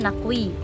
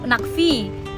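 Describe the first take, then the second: First: The last consonant is a w sound. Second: The last consonant is a v sound. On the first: "dibaca Nakwi" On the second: "namanya Nak Nakvi"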